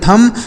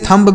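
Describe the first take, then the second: First: The word ends without any b sound. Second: The word ends with an audible b sound. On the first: The speaker calls it right. "इसे पढ़ेंगे थम" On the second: The speaker calls it wrong. "ऐसे थंब बिल्कुल नहीं पढ़ना है"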